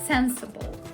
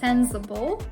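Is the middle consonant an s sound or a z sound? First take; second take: s sound; z sound. First: The middle consonant is a hissing s sound. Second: The middle consonant is a buzzing z sound. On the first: The speaker calls it right. "but rather sensible" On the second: The speaker calls it wrong. "It's not pronounced with z, so you shouldn't pronounce it as sensible"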